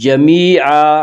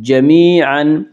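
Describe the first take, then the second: First: The word ends with a long a vowel. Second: The word ends with an n sound. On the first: The reading stops at this word. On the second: The reading continues without stopping.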